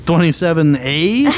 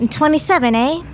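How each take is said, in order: First: Twenty-seven A? rising, confused; Twenty-seven A? asked back, puzzled; puzzled echo. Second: Twenty-seven A with a Canadian eh; Canadian accent. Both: Real, not acted. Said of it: "My Canadian accent fooled you".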